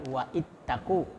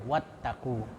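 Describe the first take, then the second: First: A glottal stop separates wa from ittaqu. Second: Wa runs straight into ttaqu with no break. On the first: The speaker calls it wrong. "jadi bukan wa ittaqu" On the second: The speaker calls it right. "tapi wattaqu. Jadi langsung dari waw ke ta"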